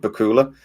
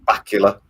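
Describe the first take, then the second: First: The name is said not rhyming with Dracula. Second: The name is said to rhyme with Dracula. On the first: The speaker calls it wrong. "I said it Bakula" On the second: The speaker calls it right. "It's actually Scott Bakula"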